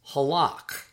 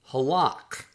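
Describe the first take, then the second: The two takes are said the same way.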